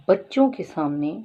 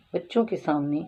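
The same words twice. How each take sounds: First: Slow, loud بچوں کے سامنے with rising end; stressed بچوں کے سامنے, slowed down. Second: Said in the usual way. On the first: Shown as a demonstration. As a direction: lean hard on بچوں کے سامنے.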